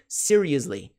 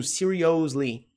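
First: "seriously" with a weak "us" in the middle; "seriously" with no O sound, just a short schwa before "ly"; correct reduced vowel. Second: "seriously" with a full "ohs" in the middle, slow; Brazilian mispronunciation. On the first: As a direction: say "seriously" as "SEER-ee-us-lee". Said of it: "é serious". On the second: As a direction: say "seriously" as "see-ree-OHS-lee". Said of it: "mania de pronúncia de brasileiros". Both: Shown as a demonstration.

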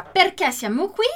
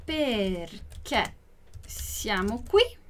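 First: Said in the usual way. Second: Drawn-out words with a pause between; slow, careful question; slow model reading. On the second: Shown as a demonstration. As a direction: stretch each word for learners, rising on "qui". Teacher repeats it slowly for learners.

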